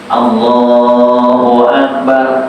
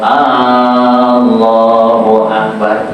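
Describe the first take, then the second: First: The opening vowel is said short. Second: The opening vowel is drawn out long. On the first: It states that God is the greatest. The speaker calls it right. "Allah Maha Besar" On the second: It asks whether God is the greatest. The speaker calls it wrong. "Tapi kalau Allahu Akbar itu nanya"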